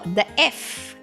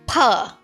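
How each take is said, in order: First: It begins with an f sound. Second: It begins with an aspirated p sound. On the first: "many pronounce it as f" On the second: "many pronounce it as pa, the ph"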